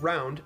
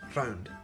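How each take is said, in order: First: The R is said plainly, not rolled. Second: The R is rolled with a trill.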